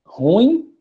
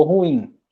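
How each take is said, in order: First: Ruim stressed on ru, said as one syllable; the wrong Ruim, ru stressed. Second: Ruim with stress on im, two syllables; right stress. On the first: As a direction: incorrect Ruim as RU-im. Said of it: "pronunciam da maneira incorreta". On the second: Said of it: "Ruim, né?". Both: Shown as a demonstration.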